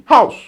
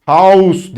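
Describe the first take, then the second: First: "house" as German "haus", short, higher and firm; right German house. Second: "House" said the English way, marked as wrong; wrong German "House". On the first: Teacher giving class the correct German "house". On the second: Teacher showing students the wrong "House". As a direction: show "House" as the mistake to avoid. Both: Shown as a demonstration. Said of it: "House değil".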